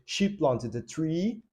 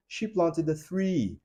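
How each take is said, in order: First: "tree" with a plain t sound, said slowly; slow demo of "tree" with a hard t; tree, not three. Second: "three" with the tongue between the teeth, th sound, slow. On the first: ("tree" com t comum, falado devagar) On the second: ("three" com som de th, falado devagar) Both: Shown as a demonstration. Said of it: "É diferente dizer".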